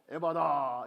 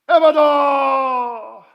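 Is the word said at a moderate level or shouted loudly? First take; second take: moderate; shouted. First: It is said at a moderate, calm level. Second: It is shouted loudly with raised pitch.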